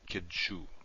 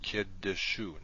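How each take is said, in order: First: The d runs straight into the sh. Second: A short vowel sounds between the d and sh. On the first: The speaker calls it wrong. "not kidshu" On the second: The speaker calls it right. "So this is pronounced kiddeshu"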